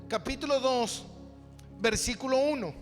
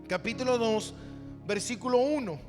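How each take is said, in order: Both takes have the same delivery.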